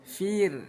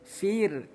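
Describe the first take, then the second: Both takes have the same delivery.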